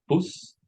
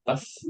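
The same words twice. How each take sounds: First: "bus" with a rounded oo vowel, like boos; northern English "bus", u as in put. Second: "bus" with an open uh vowel; southern English "bus", short open u. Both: Shown as a demonstration. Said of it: "the sound in the bus is different".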